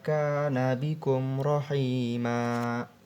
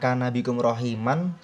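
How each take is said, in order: First: The last word ends with a long vowel. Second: The last word ends with an n sound. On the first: The speaker calls it right. "yang benar adalah" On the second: The speaker calls it wrong.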